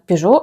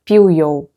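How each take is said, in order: First: It is said the Russian way, close to French. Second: It is said the Spanish way, without a zh sound. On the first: "это мы уже приближенно всё-таки взяли транскрипцию французскую" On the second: "В испанском оно произносится как"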